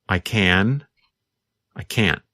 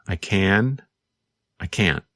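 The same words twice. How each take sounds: The two takes are said the same way.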